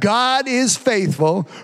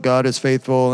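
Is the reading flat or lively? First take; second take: lively; flat. First: It is read with lively, expressive energy. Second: It is read in a flat, lifeless drone. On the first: The reader is alive and moved by the words. The speaker calls it right. "you got to read this with a little bit of expression" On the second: The reader is spiritually dead and unmoved. The speaker calls it wrong. "like this is some pontifical mass"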